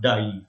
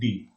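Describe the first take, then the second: First: The vowel sounds like the English word 'die'. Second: The vowel sounds like the letter name 'dee'. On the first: The speaker calls it wrong. "it is not die" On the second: The speaker calls it right. "First of all, it is d, right? Like d"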